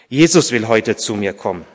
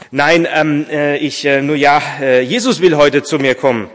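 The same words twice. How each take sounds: First: Said in the usual way. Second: Louder, higher, stumbling over the start; flustered, halting confession; hesitant admission. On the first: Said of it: "erklärte Vater Martin". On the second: A narrator's reading. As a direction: hem and haw, then come out with it. Embarrassed answer to the visitor.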